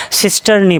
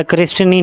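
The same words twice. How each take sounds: First: सिस्टर्नी said sis-tar-ni with an s sound at the start, no k; the right way, सिस्टर्नी starting with s; correct pronunciation. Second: क्रिस्टिनी said with a k sound at the start, kris-ti-ni; the wrong way students read it, क्रिस्टिनी with k-r at the start; common misreading. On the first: Teacher correcting the class: सिस्टर्नी said sis-tar-ni. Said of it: "इसको सिस्टर्नी पढ़ते हैं". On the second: Teacher showing students' wrong reading: क्रिस्टिनी said kris-ti-ni. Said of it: "क्रिस्टिनी नहीं पढ़ते". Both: Shown as a demonstration.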